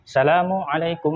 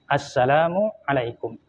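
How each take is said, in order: First: It starts with a plain single 's' sound. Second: It starts with a doubled 'as-s' sound. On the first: The speaker calls it wrong. "imam-imam yang mengucapkan seperti ini" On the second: The speaker calls it right. "dia harus pakai tasdid, harus dimakrifahkan"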